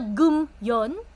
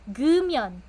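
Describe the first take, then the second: First: There is a pause between the two syllables. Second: The two syllables run together without a pause. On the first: The speaker calls it wrong. "imbis na may pause sa gitna" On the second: The speaker calls it right. "tuloy-tuloy po ang pagbasa"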